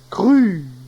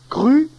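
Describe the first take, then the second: First: The final vowel is lengthened. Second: The final vowel is short. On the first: It is the feminine form. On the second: It is the masculine form.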